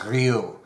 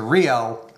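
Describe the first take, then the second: First: The name is said in a French way. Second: The name is said in an Americanized way. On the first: "in French it's pronounced Ryu" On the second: "Americanized to Rio"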